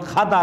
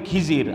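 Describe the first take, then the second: First: The name is said as Khadar. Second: The name is said as Khijir. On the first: This is the original form of the name. The speaker calls it right. "আসল উচ্চারণ খাদার" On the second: This is the local form of the name. The speaker calls it wrong. "আমাদের দেশে কয় খিজির"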